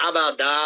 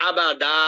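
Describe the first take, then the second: No difference in how they are said.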